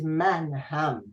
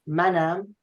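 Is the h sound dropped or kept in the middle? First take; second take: kept; dropped. First: The h sound is kept between the syllables. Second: The h sound is dropped between the syllables. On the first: This is the full form. "which is the abbreviation of manham" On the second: This is the casual spoken form. "in spoken often you drop the he in pronunciation"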